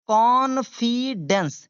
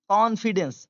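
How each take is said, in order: First: Confidence very slowly, "con... fi... dence", louder start; syllable-by-syllable model. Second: Said in the usual way. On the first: Shown as a demonstration. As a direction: stretch confidence out in three separate beats. Teacher breaks word into syllables. (confidence धीरे-धीरे, टुकड़ों में)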